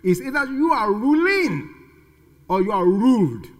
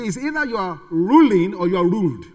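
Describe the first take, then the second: First: It is said at a slower pace. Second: It is said at a faster pace.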